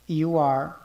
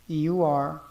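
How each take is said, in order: No difference in how they are said.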